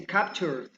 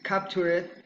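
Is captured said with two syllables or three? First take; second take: Two; Three. First: The ending joins the last syllable. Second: The ending is an extra separate syllable. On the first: The speaker calls it right. "you say captured" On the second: The speaker calls it wrong. "pronunciated in the cor- incorrect form"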